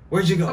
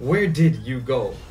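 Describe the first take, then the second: First: It is said fast with words run together. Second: Every word is said fully and carefully.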